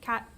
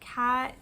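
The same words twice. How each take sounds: First: The vowel is kept short. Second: The vowel is drawn out long. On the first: "instead of cat" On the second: "or in practice it would be like cat"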